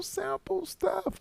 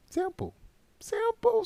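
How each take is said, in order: First: Whisper. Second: High sing-song. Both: Pretend. Playful repeated catchphrase.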